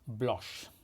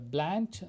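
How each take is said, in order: First: It is said with a French pronunciation. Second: It is said with an American pronunciation.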